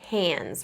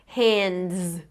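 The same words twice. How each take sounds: First: The d sound before the final s is dropped. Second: The d sound before the final s is pronounced. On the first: "I just said hands" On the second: "I didn't say hands"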